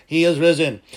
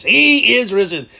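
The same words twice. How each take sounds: First: Said in the usual way. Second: Loud, high and slow proclamation; booming Easter cry; outside voice. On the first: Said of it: "Outside voice". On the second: Shown as a demonstration. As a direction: call it out like a shout from the hilltop. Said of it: "Okay, outside voice".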